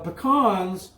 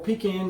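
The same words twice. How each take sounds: First: It is said with a general, non-Southern pronunciation. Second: It is said with a Southern US pronunciation.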